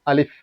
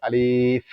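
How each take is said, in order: First: আলিফ short, without holding the li; no elongation. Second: আলিফ with the second vowel held long; wrongly drawn-out Alif. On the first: Teacher gives learners the correct form, short unstretched আলিফ. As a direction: say আলিফ quickly closed, no stretched vowel. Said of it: "কোনো টান হবে না". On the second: Teacher shows learners a common mistake, drawn-out আলিফ. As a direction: stretch the li in আলিফ before the final f. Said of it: "অনেকে আমরা বলি". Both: Shown as a demonstration.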